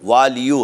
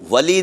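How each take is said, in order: First: The word ends with an added 'yo' syllable. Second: The word ends short, without a final syllable. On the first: The speaker calls it right. "वालियो है" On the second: The speaker calls it wrong. "वली नहीं है"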